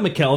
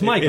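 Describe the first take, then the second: First: The name is said like Mikkel. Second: The name is said like Michael. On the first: The speaker calls it wrong. "it's not Mikkel" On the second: The speaker calls it right. "it's Michael"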